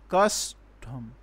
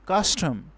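First: "custom" split slowly, weight on cus; "custom" in two separate beats, first one stronger; first-syllable stress. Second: Said in the usual way. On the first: Shown as a demonstration. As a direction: break "custom" in two, stressed cus then lighter tum. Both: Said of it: "we will give stress on the first".

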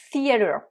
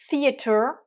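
First: Theater with the t said like a d, American style; American accent. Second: Theater with a crisp British t; British theater, pitched up; British accent. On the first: Teacher demonstrating American pronunciation. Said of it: "theater avec l'accent américain". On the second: Teacher demonstrating British pronunciation. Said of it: "theater avec l'accent, euh, britannique". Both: Shown as a demonstration.

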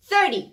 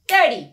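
First: Thirty hit loud on the first syllable; stress on thir. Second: Thirty loud on the first syllable; stress on thir. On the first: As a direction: punch the start of thirty. (تاکید روی اول thirty) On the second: (تاکید روی اول Thirty) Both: Shown as a demonstration.

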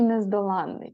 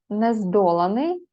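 First: Нездоланний with stress on ЛАН, long нн; stress on third syllable. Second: Нездоланий with stress on ДО, short н; stress on second syllable. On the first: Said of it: "нездоланний дві". (нездоланний: наголос на ЛАН, подовжене «нн») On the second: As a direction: hit ДО in нездоланий. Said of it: "нездоланий одна". (нездоланий: наголос на ДО, коротке «н») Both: Shown as a demonstration.

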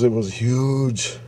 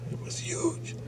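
First: Said in the usual way. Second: Whispered, awed repeat; awed whisper of the size. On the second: Retold or imitated. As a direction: whisper it for effect.

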